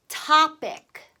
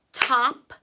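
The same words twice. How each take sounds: First: Said in the usual way. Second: "Top-ic" with a clear gap after Top; loud dictation of "Top-ic" in two separate beats; syllable by syllable. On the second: Shown as a demonstration. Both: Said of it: "Second syllable says ick".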